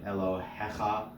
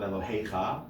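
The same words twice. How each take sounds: First: The word is said with no y glide. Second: The word is said with a y glide. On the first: The speaker calls it right. "We get other examples of that" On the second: The speaker calls it wrong. "it's not Elohecha"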